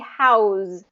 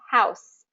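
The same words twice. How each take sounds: First: The word ends with a voiced z sound. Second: The word ends with a voiceless s sound. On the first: It is a verb meaning to shelter. "the verb form ... that Z sound" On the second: It is a noun naming a building. "that voiceless S sound"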